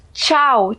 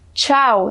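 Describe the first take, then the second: The two takes are said the same way.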